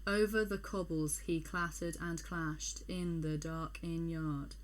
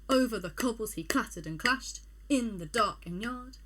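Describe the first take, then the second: First: The line is read slowly without the galloping rhythm. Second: The line is read quickly in a galloping rhythm. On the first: The speaker calls it wrong. "That just feels wrong" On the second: The speaker calls it right. "you read the poem quite quickly"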